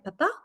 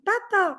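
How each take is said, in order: First: It sounds like asking a question. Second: It sounds like a warm hello. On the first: The child asks where someone is. "beaucoup plus interrogatif" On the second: The child says hello to someone arriving. "c'est coucou mon papa"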